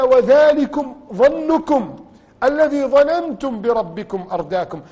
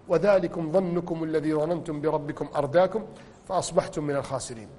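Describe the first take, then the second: First: Slow, loud, higher chanted verse; solemn recited warning; Quran recitation. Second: Softer, lower murmured verse; hushed solemn recital of the verse; soft recitation. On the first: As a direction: intone the verse with weight. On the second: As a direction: let the verse fall quietly. Reciting verse again softly. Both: Acted.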